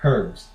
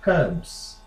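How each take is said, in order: First: Herbs with silent h, ERBS; US-style herbs; American pronunciation. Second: Herbs with the h sounded, HUHBS; British-style herbs; British pronunciation. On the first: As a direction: drop the h in herbs. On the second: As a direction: say herbs with an h and soft r. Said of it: "every time I talk in a British accent". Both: Shown as a demonstration.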